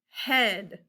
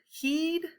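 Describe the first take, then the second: First: The vowel is a short e sound. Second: The vowel is a long ee sound. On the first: The speaker calls it right. "That sounds better" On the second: The speaker calls it wrong.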